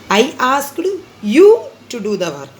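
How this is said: The stress is on you.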